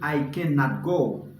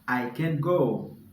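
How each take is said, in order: First: The negative is said in its full form. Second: The negative is contracted into one short word. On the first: This takes more time to say. "Pren tan pou di" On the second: This is the quicker way of saying it. "Se la li fè kontraksyon an"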